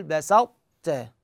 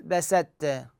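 First: بسطت keeping the emphatic ط, very slowly; correct pronunciation. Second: بسطت with the ط dropped into a plain ت, said slowly; wrong pronunciation. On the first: Teacher showing students the right way, very slow correct بسطت. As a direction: stretch بسطت so the ط keeps its itbaq before ت. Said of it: "هذا الطاء بإطباق". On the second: Teacher showing students the wrong way, slow wrong بسطت. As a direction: drag out بسطت with no emphatic ط left. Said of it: "غلط". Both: Shown as a demonstration.

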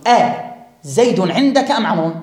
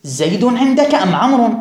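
First: أزيد said with the hamza أ clearly sounded before زيد; أ set apart, then زيد عندك أم عمرو; with the question hamza. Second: زيد said bare, with no أ before it; زيد عندك أم عمرو with no hamza at the start; hamza dropped. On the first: Teacher showing students the question with أ on زيد. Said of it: "فهكذا أقول". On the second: Teacher showing students the same question without the hamza. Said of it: "فيصح لك أن تقول". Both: Shown as a demonstration.

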